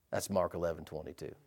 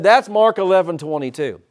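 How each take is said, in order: First: Low, soft, almost murmured reference; quiet reading. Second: Louder, punchy, preached out; loud repeat. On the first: Preacher quietly cites the verse to the church, hushed. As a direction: drop it to a hush. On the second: Preacher repeats the verse to a sleepy congregation, loud. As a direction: hit it hard so they wake up. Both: Shown as a demonstration. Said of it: "I said".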